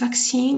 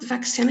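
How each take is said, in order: First: The second syllable has a long vowel. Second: The second syllable has a short vowel. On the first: The speaker calls it right. "it is vaccine. You have to see, so long sound" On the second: The speaker calls it wrong. "it's not pronounced vaccine"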